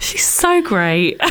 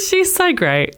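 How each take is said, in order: First: Slow, drawn-out admiring sigh; gushing admiration. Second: High, slow gush after a laugh; gushing admiration. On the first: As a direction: stretch it out adoringly. Admiring thought quoted while gushing. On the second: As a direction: coo it up high, stretched out. Admiring thought repeated with laughter. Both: Retold or imitated.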